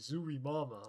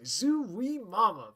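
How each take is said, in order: First: It is said as a plain, non-flirtatious exclamation. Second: It is said as a leering, flirtatious catcall. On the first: The speaker calls it right. "apparently it's like" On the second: The speaker calls it wrong. "I thought it was like a Hello Nurse thing"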